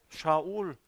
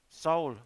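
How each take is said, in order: First: The name begins with a sh sound. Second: The name begins with an s sound. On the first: This is the original Hebrew form. "Es heißt Shaul" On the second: This is how the Greeks said it. "sie sagten Saul"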